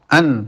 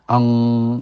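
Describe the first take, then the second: First: The syllable ends with a clear n sound. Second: The syllable ends with an ng sound. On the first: The speaker calls it right. "An bukan ang" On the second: The speaker calls it wrong. "bukan ang"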